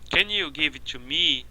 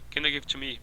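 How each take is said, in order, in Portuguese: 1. Cada palavra é pronunciada completamente e separadamente. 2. As palavras pequenas são reduzidas a schwa. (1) "Não falam assim, soletrando palavra por palavra na frase" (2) "Reduzindo a schwa"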